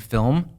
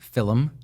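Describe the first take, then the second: First: The word is said as one syllable. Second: The word is said with an extra syllable. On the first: The speaker calls it right. "instead of saying film" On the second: The speaker calls it wrong. "where'd you get that extra I?"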